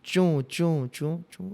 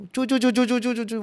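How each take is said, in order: First: Spaced-out squeaky footsteps; squeaky shoe sound. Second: Rapid, high-pitched run of squeaks; high chirping footsteps in quick succession; squeaky shoe sound. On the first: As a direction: imitate shoes squeaking step by step. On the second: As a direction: imitate shoes scurrying with high squeaks. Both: Retold or imitated. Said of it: "कोई जूता पहन के नीचे घर में घूम रहा है".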